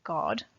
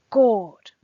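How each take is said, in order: First: Said in the usual way. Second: Sudden loud exclamation of "God"; emotional interjection. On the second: Acted. Teacher quoting the poet's interjection to students, emphatic exclamation. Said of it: "that emotional interjection here".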